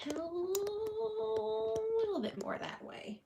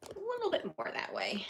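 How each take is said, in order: First: Drawn out much higher and slower; high slow coaxing voice. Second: Said in the usual way. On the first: Shown as a demonstration.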